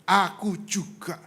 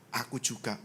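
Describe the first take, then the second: First: Slow, weighty repeat; emphatic divine reply. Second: Low, soft and understated; quiet divine reply. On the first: God repeats the answer to the speaker, slow and deliberate. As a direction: spell it out slowly as God's answer. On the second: God answers the speaker about love, quiet low reply. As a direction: let it drop softly as God's answer. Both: Retold or imitated.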